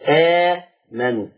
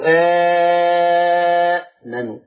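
First: The opening long vowel is held for two counts. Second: The opening long vowel is held for six counts. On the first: "اثنين" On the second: "أو ستة"

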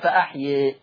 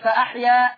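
First: The final vowel is slightly fronted toward e. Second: The final vowel is a fully open a. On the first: "ولك فيها التقليل فاحيا" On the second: "لك فيها الفتح فاحيا"

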